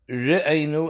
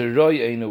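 First: The first vowel is a reduced shva. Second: The first vowel is a full cholam. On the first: The speaker calls it right. "It should be re'enu with a shva" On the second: The speaker calls it wrong. "as opposed to roy'enu with a chaylim"

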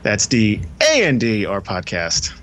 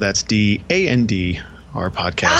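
First: It is said with an exaggerated, showy inflection. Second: It is said plainly, with no special inflection. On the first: The speaker calls it right. "Do it the way you do it. ... That fucking inflection" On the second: The speaker calls it wrong. "Oh, you didn't do it right"

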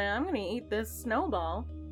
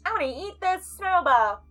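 First: It is said quietly. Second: It is said loudly.

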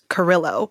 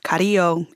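First: The name is said with an English pronunciation. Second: The name is said with a Spanish pronunciation. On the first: This is the form changed to fit in. "that's how I pronounce my last name now" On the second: This is the family's original form of the name. "instead of Carrillo"

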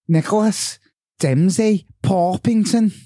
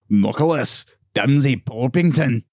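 First: It is said in a Scouse accent. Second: It is said in a Scottish accent.

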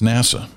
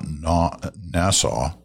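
First: It is not said like the island Nassau. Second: It is said like the island Nassau. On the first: The speaker calls it right. "It's NASA" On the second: The speaker calls it wrong. "It's not NASA"

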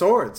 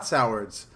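First: The first part sounds like the word sore. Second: The first part sounds like the word sour. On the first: The speaker calls it right. "It's two swords" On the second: The speaker calls it wrong. "It's not Sowards"

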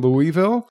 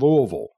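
First: The name is said carefully, syllable by syllable. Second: The name is slurred together into fewer syllables. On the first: An outsider said it. The speaker calls it wrong. "they were like, I'm in Louisville" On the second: A local said it. The speaker calls it right. "talk like you're drunk"

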